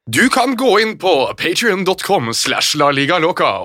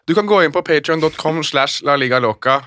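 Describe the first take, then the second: First: It is said in a put-on East Norwegian accent. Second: It is said in the speaker's natural accent. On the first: The speaker calls it wrong. "Hvorfor gjør du det til med sånn østnorsk stemme?" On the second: The speaker calls it right. "men bare sier det normalt da"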